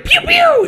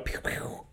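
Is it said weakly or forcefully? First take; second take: forcefully; weakly. First: It is said forcefully, with more energy. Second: It is said weakly, with little energy.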